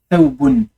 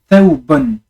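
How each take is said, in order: No difference in how they are said.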